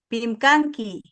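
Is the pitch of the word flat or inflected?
flat. The pitch stays flat like a statement. The speaker calls it right.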